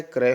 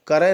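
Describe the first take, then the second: First: क्रय as one-beat kray; correct joined cluster. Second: क्रय broken into ka-ray, higher pitched; split-cluster mistake. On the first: Teacher correcting students, क्रय as kray. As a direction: join k and r tightly in क्रय. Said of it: "क्रय होता है". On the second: Teacher showing the mistake, क्रय as ka-ray. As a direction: say क्रय wrongly with a vowel between k and r. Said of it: "क्रय नहीं होता है". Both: Shown as a demonstration.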